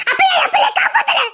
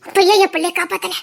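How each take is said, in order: First: Anguished scream. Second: Said in the usual way. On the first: Acted. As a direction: scream the question at him. Repeat screamed about lost child. (இழந்த பிள்ளைக்காக கதறும் அலறல்)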